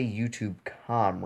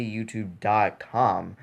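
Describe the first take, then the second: First: "YouTube com" run together with no "dot"; wrong way. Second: "YouTube dot com" with the "dot" said clearly; right way. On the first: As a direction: say "YouTube com" as one name, skipping the "dot". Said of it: "you don't say YouTube com". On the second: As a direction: give "dot" its own beat in "YouTube dot com". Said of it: "You say YouTube dot com". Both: Shown as a demonstration.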